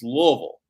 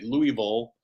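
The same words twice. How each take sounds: First: The name is said the way locals say it. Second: The name is said the way outsiders say it. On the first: The speaker calls it right. "it's Louisville" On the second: The speaker calls it wrong. "how do other people say it?"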